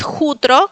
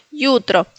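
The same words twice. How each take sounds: First: "jutro" with raspy Spanish j, JÚ-tro; Spanish-style J. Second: "yutro" with a y glide at the start. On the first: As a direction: say "jutro" as a Spanish reader would. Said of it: "No es jutro". ("jutro" con jota española) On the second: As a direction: say "yutro" as YÚ-tro. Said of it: "sino yutro". ("yutro" con i griega, a la polaca) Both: Shown as a demonstration.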